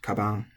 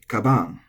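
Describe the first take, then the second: First: The word is said with flat pitch. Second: The word has a stressed, accented pitch. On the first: The speaker calls it right. "It's flat" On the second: The speaker calls it wrong. "we have a strong tendency to say"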